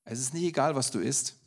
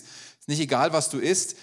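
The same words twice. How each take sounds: First: Said in the usual way. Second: "egal" und "was" lauter und steigend betont; emphatic repeat. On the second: Shown as a demonstration. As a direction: lift "egal" and "was", louder. (Nachdruck auf „egal“ und „was“, lauter und steigend)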